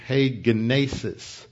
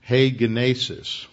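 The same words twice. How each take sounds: First: Said in the usual way. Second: "Hegenesis" set apart and said slowly as heh-geh-NAY-sis; "Hegenesis" said alone, slowly and deliberately, every syllable clear; Greek word said slowly. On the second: Shown as a demonstration. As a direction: pronounce "Hegenesis" carefully so it echoes "genesis". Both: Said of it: "What does that sound like?".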